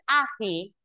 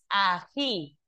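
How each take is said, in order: First: The stress is on the first syllable. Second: The stress is on the last syllable. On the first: The speaker calls it wrong. "no es ají" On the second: The speaker calls it right. "El acento está en la última sílaba"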